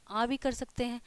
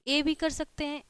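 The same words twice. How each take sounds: First: आ in "आ भी" said as an open long aa sound; second vowel reading. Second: ए in "ए भी" said as a clear short e sound; first vowel reading. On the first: Teacher showing students the other way to say the vowel, आ as aa. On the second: Teacher showing students one way to say the vowel, ए as e. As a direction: give ए as a plain e vowel, like in "मैट". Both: Shown as a demonstration. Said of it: "क्या हो सकता है इसका उच्चारण".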